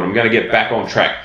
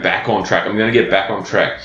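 First: Said in the usual way. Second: Scornful quoting. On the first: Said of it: "you go". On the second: Retold or imitated. Coach to clients, scorning their favourite phrase: mocking repetition. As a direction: sneer at "back on track" as a hated phrase. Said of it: "I hate that term".

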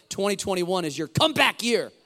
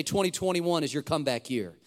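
First: Loud rallying cry, building to the end; forceful, louder declaration with conviction. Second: Said in the usual way. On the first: Shown as a demonstration. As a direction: say it like you mean it, belting "comeback year". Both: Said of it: "Say it with conviction".

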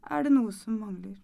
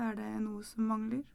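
First: DET stressed more firmly; firm refrain. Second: MANGLER lifted softly at the end; soft rising refrain. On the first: Narrator looking at own hands, firm stressed refrain. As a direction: put the weight on "det" in the refrain. Repeated refrain, firmer louder take. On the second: Narrator looking in the mirror, soft rising refrain. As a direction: let "mangler" rise gently, softer. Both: A narrator's reading.

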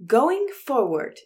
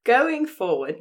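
First: High, loud, drawn-out put-on voice; Elon Musk. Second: South African attempt slipping into British; higher, louder, British-sounding stab at South African; failed South African accent. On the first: Actor told to channel a tech boss for the listeners, put-on voice. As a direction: announce it slowly in a pitched-up character voice. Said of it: "do an Elon Musk voice and attitude". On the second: Co-host demands a South African accent, attempt comes out British. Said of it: "No, it's British".

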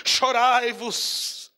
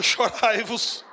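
First: "Chorai-vos" drawn out very slowly; slow mock quote. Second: "Chorai-vos" said slowly; slow mock quote. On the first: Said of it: "Não está escrito". ("Chorai-vos" bem devagar, em tom de zombaria) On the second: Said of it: "Outra vez vos digo". ("Chorai-vos" devagar, zombando) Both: Shown as a demonstration.

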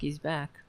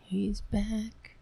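First: Said in the usual way. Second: Mock-scared whisper. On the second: Host whispering to viewers that her cat has returned. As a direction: whisper it as if the cat might hear.

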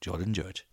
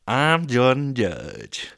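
First: Said in the usual way. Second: Very slow, loud, high proclamation; mock-grand, drawn-out self-introduction; hammed-up contestant voice. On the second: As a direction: announce yourself grandly, stretching every word. Hams up the contestant's name.

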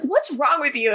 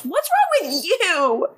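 First: Said in the usual way. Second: High, drawn-out mock yell; mock Klaus yell. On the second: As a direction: imitate an outraged yell, slow and high-pitched. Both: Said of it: "And Klaus yells".

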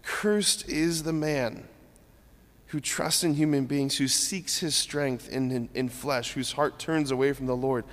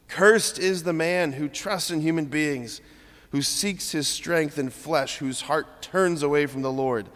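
First: Merciful father. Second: Said in the usual way. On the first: Shown as a demonstration. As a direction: read it with a father's aching heart. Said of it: "the Father's heart saying". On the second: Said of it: "What is the right tone?".

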